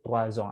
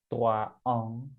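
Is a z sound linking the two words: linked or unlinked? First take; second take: linked; unlinked. First: A z sound links the two words together. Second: The words are said separately with no z link. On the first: The speaker calls it right. "ngomongnya tuh troazong, ada sambungannya" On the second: The speaker calls it wrong. "kita baca ini jadi tuaong, itu salah"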